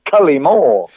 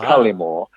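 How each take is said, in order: First: Both the first and third syllables are stressed. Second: Only the first syllable is stressed. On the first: "I love the way you say my name ... you sort of stress the first and the third syllables" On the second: "I stress the first syllable"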